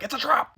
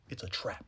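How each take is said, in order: First: Much higher, urgent warning cry; Admiral Ackbar. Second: Much lower, much softer; hushed ominous. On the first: Warning Joel about the lodge, high urgent cry. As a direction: shout it like a sci-fi admiral. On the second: Confirming the lodge trap, low and hushed. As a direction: let the warning sink low. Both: Retold or imitated. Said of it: "Admiral Ackbar to be like".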